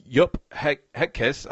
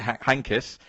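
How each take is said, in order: First: Heynckes attempted as "HEK-iss"; unsure first go at Heynckes, "HEK-iss"; tentative pronunciation. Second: Heynckes said as "HANK-iss"; careful second go at Heynckes, "HANK-iss"; corrected pronunciation. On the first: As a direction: stumble into Heynckes, saying it without the n. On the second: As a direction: restart on He-, then land Heynckes with an n, "HANK-iss". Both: Real, not acted. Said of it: "I think I pronounced it as".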